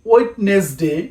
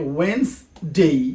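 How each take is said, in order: First: It is said the common local way. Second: It is said the standard English way. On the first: The speaker calls it wrong. "আমরা বলে থাকি" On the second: The speaker calls it right. "সঠিক উচ্চারণ"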